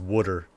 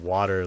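First: The first vowel sounds like 'uh'. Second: The first vowel sounds like 'ah'. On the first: The speaker calls it wrong. "like W-U" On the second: The speaker calls it right. "like W-A"

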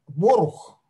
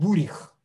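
First: The first vowel is o, the second u. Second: The first vowel is u, the second i. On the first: This is the Belarusian Yiddish form. "Вот в белорусском, который я считаю базовым" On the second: This is the Ukrainian Yiddish form. "А в украинском бурих"

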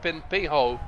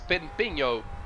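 First: The name is said with an English pronunciation. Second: The name is said with a Portuguese pronunciation. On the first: The speaker calls it wrong. "it's not Pimpinho" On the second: The speaker calls it right. "In our language, guys, ... it's Pimpinho"

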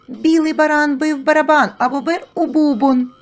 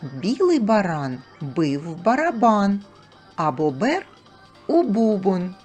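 First: The phrase is spoken at a very fast pace. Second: The phrase is spoken at a normal pace.

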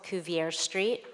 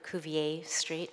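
First: Cuvier is said with an English pronunciation. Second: Cuvier is said with a French pronunciation.

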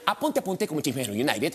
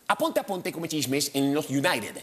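First: It is said as fast as possible. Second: It is said at a moderate warm-up speed. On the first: "Ahora voy a toda velocidad" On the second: "solamente estoy calentando"

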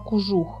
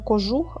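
First: The first vowel is a u sound. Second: The first vowel is an o sound. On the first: This is the southwestern dialect form. "О в них зазвичай звучить як у" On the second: This is the standard form. "не кожух"

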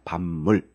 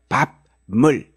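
First: The syllables are joined, first ending turned nasal. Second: The two syllables are said separately, unassimilated. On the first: The speaker calls it right. "이런 식으로 발음을 하시게 된다" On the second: The speaker calls it wrong. "이런 식으로 발음하는 게 아니라"

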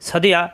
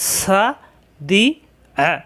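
First: The syllables are run together quickly. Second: The syllables are said separately with breaks.

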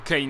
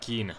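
First: The vowel sounds like ay. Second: The vowel sounds like ee. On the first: The speaker calls it wrong. "Bo Kane jednak tak nie mówi się" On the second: The speaker calls it right. "Mam nadzieję, że dobrze mówię te Kin"

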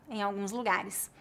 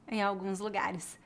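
Both takes have the same delivery.

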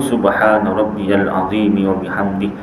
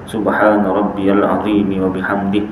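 Both takes have the same delivery.

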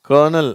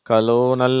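First: It begins with 'ker' and has two syllables. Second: It begins with 'ka' and has an 'lo' syllable. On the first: The speaker calls it right. "அதுதான் correct" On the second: The speaker calls it wrong. "அப்படின்லாம் படிக்கிறாங்க. அது தப்பு"

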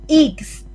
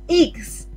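The two takes are said the same way.

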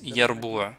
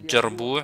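First: The word starts with a y sound. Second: The word starts with a j sound. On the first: Some speakers pronounce it this way. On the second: This is the standard pronunciation.

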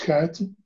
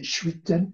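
First: The name begins with an 'sk' sound. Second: The name begins with an 'sh' sound. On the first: This is the Dutch pronunciation. "In Dutch, since it's a Dutch name, we pronounce Skuiten" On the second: This is the French pronunciation. "The French say chuiten"

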